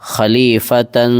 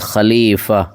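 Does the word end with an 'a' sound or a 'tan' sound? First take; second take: tan; a. First: The word ends with a 'tan' sound. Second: The word ends on a plain 'a' sound. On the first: The reciter joins it to the next word. "अगर मिला करके पढ़ना है" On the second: The reciter stops on this word. "जब इस यहाँ पर रुकेंगे तो ये ता जो है वो हा की शक्ल में बदल जाए"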